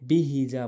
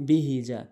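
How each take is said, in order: Both takes have the same delivery.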